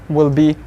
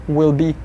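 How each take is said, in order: Both takes have the same delivery.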